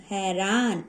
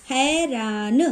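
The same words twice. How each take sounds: First: Said in the usual way. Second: हैरान stretched in separate syllables, rising; sounding out. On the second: Shown as a demonstration. Teacher showing the ai sign, drawn-out syllables. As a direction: sound out हैरान with a long open "ai". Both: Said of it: "ऐ, ऐ ऐसा आ रहा है".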